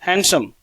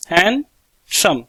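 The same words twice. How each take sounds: First: Said in the usual way. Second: handsome slowed into two clear beats, han-sum; teacher sounding out handsome slowly; syllable by syllable. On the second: Shown as a demonstration. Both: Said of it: "जैसे मैं clap कर कर बताऊंगा आपको".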